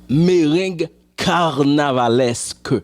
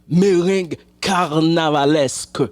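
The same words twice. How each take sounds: No difference in how they are said.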